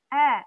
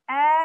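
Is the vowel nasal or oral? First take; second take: oral; oral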